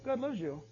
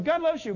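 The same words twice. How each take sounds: First: God loves you said softer, unsure; doubtful mutter. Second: Bright, confident God loves you; breezy reassurance. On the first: Believer doubting own words, quietly unsure. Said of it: "I wish I knew about". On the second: Believer telling others, cheerfully confident. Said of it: "we're going". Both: Retold or imitated.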